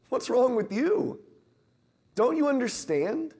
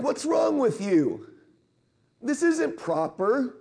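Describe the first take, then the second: First: Higher, an exasperated gentle rebuke. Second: High and slow, scandalised; indignant disciples. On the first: Jesus rebuking his disciples, an exasperated gentle rebuke. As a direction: shake your head at them as you ask. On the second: Disciples scolding the parents, slow indignant disapproval. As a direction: look down your nose as you say it. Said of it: "and they're like". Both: Retold or imitated.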